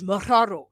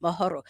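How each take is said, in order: First: "maharo" with a strongly trilled Spanish R; Spanish rolled R. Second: "mahoro" with only a lightly tapped R; light, low roll. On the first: Learner contrasting a Spanish roll, trilled R in "maharo". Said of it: "Spanish is maharo". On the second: Learner showing the local word, light R in "mahoro". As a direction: keep the R in "mahoro" short and low, no Spanish trill. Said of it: "it's a low mahoro". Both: Shown as a demonstration.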